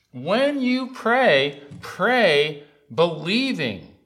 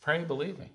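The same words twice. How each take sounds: First: Slow, loud preaching with high peaks; forceful, drawn-out pulpit charge; emphatic exhortation. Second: Said in the usual way. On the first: Real, not acted. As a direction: drive each word home to the congregation. Preacher drives the exhortation home.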